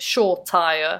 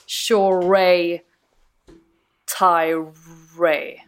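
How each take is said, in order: First: The middle has no 'ay' sound. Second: The middle has an 'ay' sound. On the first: This is the version people commonly say. "Shortire har man hört" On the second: This is apparently the proper pronunciation. "att det är liksom ett A-Y-ljud där i mitten"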